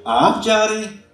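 It is said in a mocking, sarcastic tone.

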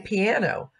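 It is said in an everyday English way. The speaker calls it wrong. "We say piano"

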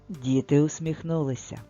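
It is said as a calm, level statement. Something is being told. "Тут щось розповідається"

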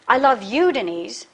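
The stress falls on the word you. Denise, not another woman, is the one loved. "not that other woman"

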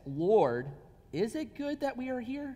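It is said as a question.

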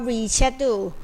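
The word is said in a British accent. "เป็นสำเนียงอังกฤษ"

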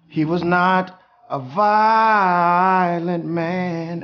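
It is said with intense, drawn-out disgust. "she just squoze all the juice that she possibly could"

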